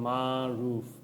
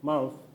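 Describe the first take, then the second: First: The vowels are drawn out and separated. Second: The vowels are clipped short and run together. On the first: "এরকম মা রুফ এভাবে না বলে" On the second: "ওরা like মারুফ এরকম করে বলবে"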